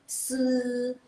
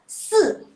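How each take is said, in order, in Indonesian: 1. Nada tetap tinggi dan datar. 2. Nada turun tajam dari tinggi ke rendah. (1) "kalau dia nada ke satu" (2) "kalau nada keempat"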